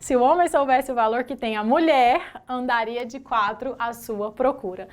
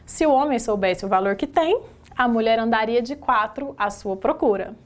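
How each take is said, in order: First: The pause comes right after the word 'mulher'. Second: The pause comes right after the word 'tem'.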